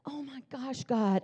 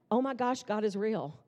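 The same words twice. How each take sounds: First: Hushed, higher, as if about to cry; mock tearful awe. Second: Said in the usual way. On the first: Speaker imagines herself crying at answered prayer, mock tearful. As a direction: play at being softly overcome. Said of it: "you would think that I would start crying". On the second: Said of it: "there was no emotion".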